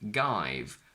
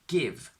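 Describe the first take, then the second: First: The vowel is a long diphthong. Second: The vowel is short. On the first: The speaker calls it wrong. "I would naturally pronounce it as have and then give" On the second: The speaker calls it right. "we obviously have exceptions"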